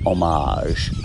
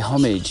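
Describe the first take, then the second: First: It is said the American way, without h. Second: It is said the English way, with h. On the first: "homage, the Americans say" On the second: "We say homage in England"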